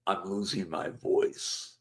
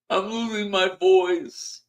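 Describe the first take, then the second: First: Soft, slow, strained; weak fading voice. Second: High, slow, strained croak on "I'm losing my voice"; hammed-up lost voice. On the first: Shown as a demonstration. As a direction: let the voice give out on losing. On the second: Vlogger jokes to viewers about losing his voice, mock-strained. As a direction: fake a failing voice for laughs. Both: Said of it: "how else can I say".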